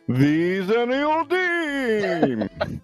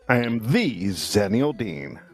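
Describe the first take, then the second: First: It is said in a put-on character voice. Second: It is said in his normal voice.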